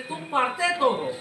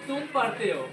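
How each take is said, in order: First: It is said with insistent, pressing emphasis. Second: It is said in a plain, neutral way.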